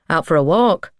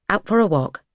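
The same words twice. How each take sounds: First: "walk" lifted in a rising question; casual questioning. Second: "Out for a walk" falling at the end; echoed confirmation. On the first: Martin greets the man on the path, "walk" rising questioningly. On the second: Startled man echoes Martin's words, "walk" falling in confirmation. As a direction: confirm it, letting "walk" drop. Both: A narrator's reading.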